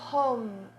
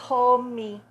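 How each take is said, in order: First: It is said in an English accent, ending closed on M. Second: It is said in a Portuguese accent, with an added vowel. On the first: The speaker calls it right. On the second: The speaker calls it wrong.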